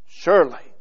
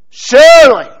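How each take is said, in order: First: Surely murmured softly in wonder. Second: Surely proclaimed high and loud; surely cried out like a certainty; confident surely. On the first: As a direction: let surely settle in quiet awe. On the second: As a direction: ring out surely with total confidence. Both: Shown as a demonstration. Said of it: "It tells us the mood, the, the tone".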